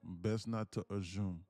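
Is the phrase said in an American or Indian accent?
Indian. It is said in an imitated Indian accent. "He would go"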